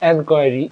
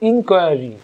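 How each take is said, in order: First: The word begins with an 'en' sound. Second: The word begins with an 'in' sound. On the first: This is the British form. "ব্রিটিশরা বলে এনকোয়ারি" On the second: This is the American form. "আমেরিকানরা বলে ইনকোয়ারি"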